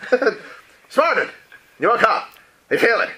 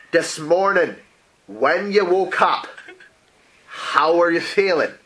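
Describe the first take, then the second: First: High, loud and drawn-out slow question; pushy question. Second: Slow, deliberate spelled-out repeat; patient repeat. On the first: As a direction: lean in and press her with it, slowly. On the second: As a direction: say it again slowly for someone who missed it. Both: Acted. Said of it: "excuse me, excuse me?".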